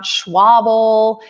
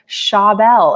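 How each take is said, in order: First: A 'w' sound follows the 'sh'. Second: The 'sh' goes straight into the vowel. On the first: The speaker calls it wrong. "It's not Schwabel" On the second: The speaker calls it right. "it's Dan Schabel"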